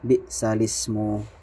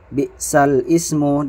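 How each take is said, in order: First: The two words are joined into one. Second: The two words are said separately.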